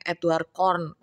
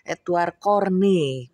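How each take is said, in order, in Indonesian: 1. Nama belakangnya diucapkan dengan satu suku kata. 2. Nama belakangnya diucapkan dengan dua suku kata. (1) "banyak banget tuh yang ngomongnya Edward Corn" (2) "bacanya Corney"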